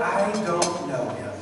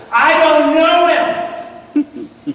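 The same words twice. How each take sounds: First: Said in the usual way. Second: Loud, high, drawn-out yell; Peter yelling. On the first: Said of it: "when he yelled". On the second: Retold or imitated. Cornered disciple denying Jesus at dawn, yelled. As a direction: yell the denial slowly, every word stretched. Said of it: "cursed and yelled".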